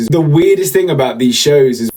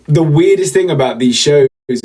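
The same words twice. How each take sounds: The two takes are said the same way.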